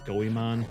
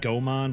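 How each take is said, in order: First: The name is said with three syllables. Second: The name is said with two syllables. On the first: The speaker calls it right. "but I guess it's Goemon" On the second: The speaker calls it wrong. "I always pronounced it Gomon"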